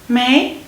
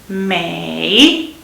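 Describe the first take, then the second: First: The syllable is said with a rising tone. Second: The syllable is said with a dipping tone. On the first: It is the word in the phrase for not having. "second term" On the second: It means every. "which is every"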